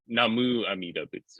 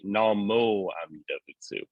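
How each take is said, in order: First: The first word ends with a 'u' sound. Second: The first word ends with an 'o' sound. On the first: This is the older form another branch uses. "they use the older" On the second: This is how the speaker's own tradition says it. "We actually say Namo Amida Butsu"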